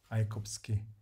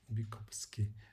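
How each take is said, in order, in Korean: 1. 첫 음절은 'my'로 발음합니다. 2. 첫 음절은 'mee'로 발음합니다.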